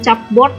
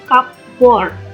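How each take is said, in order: First: The word begins with a ch sound. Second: The word begins with a k sound. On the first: The speaker calls it wrong. "bukan cupboard ya" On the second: The speaker calls it right. "huruf C-nya dibaca K ya"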